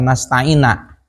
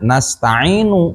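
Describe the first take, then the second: First: The word ends with an a vowel. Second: The word ends with a u vowel. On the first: The speaker calls it wrong. "atawa dibaca nasta'ina" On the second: The speaker calls it right. "kuduna nasta'inu"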